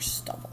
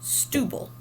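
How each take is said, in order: First: The first vowel is a short u sound. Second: The first vowel is a long u sound. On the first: The speaker calls it right. "We need that extra B for stubble" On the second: The speaker calls it wrong. "it would get a macron, and we would say stubble. Is that the way we want to pronounce it? It's not"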